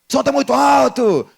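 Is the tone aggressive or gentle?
aggressive. It is said in an aggressive, shouting tone.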